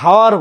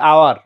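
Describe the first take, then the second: First: The word begins with an h sound. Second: The word begins with a vowel sound. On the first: The speaker calls it wrong. "আমরা হাওয়ার বলি না" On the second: The speaker calls it right. "বলি আওয়ার"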